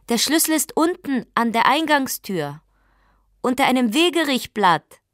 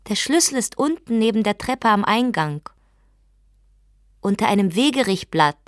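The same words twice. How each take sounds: First: Higher and louder call, repeated; calling again. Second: Higher, louder call through the door. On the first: Wife calling the key's hiding place to her husband again. Repeats instruction through door. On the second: Wife calling to her husband through the door where the key is. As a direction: call out the hiding place clearly. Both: Acted.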